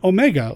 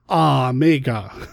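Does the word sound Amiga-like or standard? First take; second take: standard; Amiga-like. First: The name is said in a standard way. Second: The name is said so it sounds like Amiga.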